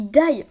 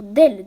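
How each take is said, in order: First: "d'ail" said short, like garlic, with no ending; misread word. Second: "d'ailes" said fully as wings, a bit louder; corrected word. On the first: Misreading the book aloud, saying "d'ail" like garlic. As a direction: clip "d'ail" to the single sound of garlic. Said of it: "d'ailes, désolé". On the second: Correcting her misreading for viewers, firmer "d'ailes". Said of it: "J'ai dit d'ail". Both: Real, not acted.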